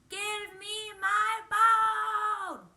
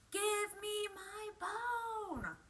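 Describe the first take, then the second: First: It is said more loudly. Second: It is said fairly quietly.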